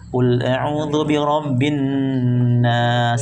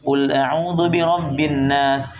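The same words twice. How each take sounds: First: It is read slowly with the nasal held long. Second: It is read quickly with the nasal cut short. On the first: The speaker calls it right. "cara bacanya ditahan" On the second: The speaker calls it wrong. "saking tercepat-cepatnya bacanya biasa aja"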